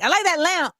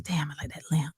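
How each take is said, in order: First: High, lifted compliment; finally speaking up. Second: Low, soft aside to oneself; muttered private thought. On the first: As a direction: pipe up with an admiring remark. Finally tells the man aloud. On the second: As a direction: think it aloud quietly. Private thought, not yet said aloud. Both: Retold or imitated.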